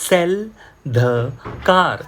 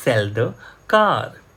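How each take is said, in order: First: Each word said slowly and apart; slow model reading. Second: Said in the usual way. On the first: Shown as a demonstration. Teacher reading slowly, word by word, for students. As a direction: read it out word by word for learners.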